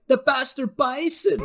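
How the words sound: It is said in a very high-pitched voice.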